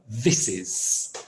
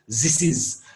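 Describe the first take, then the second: First: It begins with a th sound. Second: It begins with a z sound. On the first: The speaker calls it right. "the correct sound" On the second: The speaker calls it wrong. "They substitute for a z"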